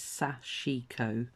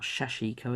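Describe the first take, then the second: First: The word begins with a plain 's' sound. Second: The word begins with a 'sh' sound. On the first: The speaker calls it right. "It's sashiko" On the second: The speaker calls it wrong. "not shashiko as I was saying it"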